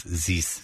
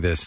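First: Low, soft French-accented "zis"; Sebastian Latour's accent. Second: Said in the usual way. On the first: Shown as a demonstration. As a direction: swap the TH of THIS for a French Z. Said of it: "Saying, instead of saying this". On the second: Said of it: "instead of saying this".

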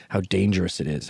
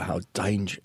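First: Said in the usual way. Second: A light, accidental British accent; touch of British on the vowels. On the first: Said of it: "I don't know why I did a British accent". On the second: Shown as a demonstration. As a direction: slip briefly into a British accent. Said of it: "I did a British accent".

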